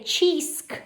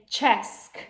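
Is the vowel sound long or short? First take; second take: long; short. First: The vowel is a long ee sound. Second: The vowel is a short e sound. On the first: The speaker calls it wrong. "So I'm not going to say cheesk" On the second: The speaker calls it right. "I'm going to say chesk. ... it's a closed syllable"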